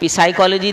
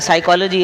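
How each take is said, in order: First: The initial p sound is pronounced. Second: The initial p sound is silent. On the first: This is how it is written. "पी साइकोलॉजी देखें" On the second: This is how it is read. "पी हटा दें"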